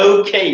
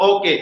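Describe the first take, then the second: First: Okay with gliding "oh-oo" and "kay"; English glides in Okay; correct diphthongs. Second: Okay with pure o and e, "o-ke"; no glides in okay; wrong vowels. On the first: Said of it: "Okay, not okay". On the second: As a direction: say okay with short plain Bengali vowels. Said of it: "not okay". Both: Shown as a demonstration.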